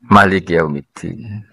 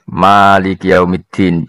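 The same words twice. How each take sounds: First: The first vowel of Malik is kept short. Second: The first vowel of Malik is drawn out long. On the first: "Ulama lain baca" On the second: "bil mati"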